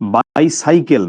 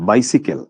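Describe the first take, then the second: First: The middle syllable has the vowel of 'sigh'. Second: The middle syllable has the short vowel of 'sit'. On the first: The speaker calls it wrong. "এটা শুদ্ধ উচ্চারণ কিন্তু বাইসাইকেল না" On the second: The speaker calls it right.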